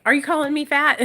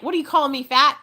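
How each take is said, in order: First: Loud, indignant mock outrage; mock offended. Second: Mock offended. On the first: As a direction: act insulted, pushing the last word. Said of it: "why I was like". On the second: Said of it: "And I was so mad".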